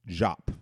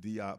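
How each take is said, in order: First: The name begins with a 'j' sound. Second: The name begins with a 'd' sound. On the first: The speaker calls it right. "the pronunciation is Jop" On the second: The speaker calls it wrong. "some call it, pronounce it Diop"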